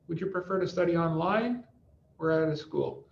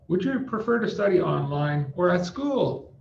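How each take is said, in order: First: Voice goes up on online, down on school. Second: Voice goes down on online, up on school. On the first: The speaker calls it right. "it's like up or down" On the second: The speaker calls it wrong. "What if we change the order? ... It sounds kind of crazy"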